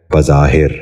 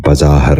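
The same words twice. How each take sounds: First: بظاہر with the last syllable said as i, bazahir; correct pronunciation. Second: بظاہر with the last syllable said as a, bazahar; wrong pronunciation. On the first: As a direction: end بظاہر on a short i: bazahir. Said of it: "درست تلفظ ہے". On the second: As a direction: end بظاہر on a short a. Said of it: "یہ غلط تلفظ ہے". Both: Shown as a demonstration.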